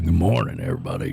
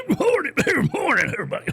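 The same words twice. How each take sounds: First: Low, booming radio announcer greeting; deep radio voice. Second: High, strained, laughing radio greeting; a worn-out old DJ straining up high; older tired radio voice. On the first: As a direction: drop into a deep DJ voice. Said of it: "you got that deep voice". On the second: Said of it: "as you get older". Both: Retold or imitated.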